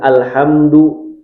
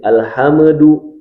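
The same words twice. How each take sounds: First: The m goes straight into d, no extra vowel. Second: An extra vowel sound is added after the m. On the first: The speaker calls it right. "Seharusnya alhamdu" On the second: The speaker calls it wrong. "tapi alhamdu, nah itu tawallud"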